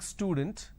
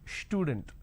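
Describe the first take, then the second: First: The word begins with an s sound. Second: The word begins with an sh sound. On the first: The speaker calls it right. "Instead of saying student" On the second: The speaker calls it wrong. "they start it with sh instead of s"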